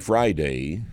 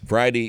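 First: It is said in a put-on Californian accent. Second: It is said in a plain, ordinary accent.

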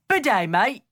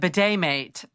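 First: It is said in a Cockney-like put-on accent. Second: It is said in the speaker's plain accent.

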